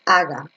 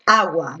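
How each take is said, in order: First: "aga" with no w sound after the g; u dropped. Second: "agua" with the u heard as a w glide; u pronounced. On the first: Teacher shows the reading not to use, u silent. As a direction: say "aga", skipping the u of agua. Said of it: "no dices aga". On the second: Teacher shows there is a diphthong, u sounded in "agua". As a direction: say "agua" as AH-gwa, not AH-ga. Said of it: "Aquí tú dices agua". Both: Shown as a demonstration.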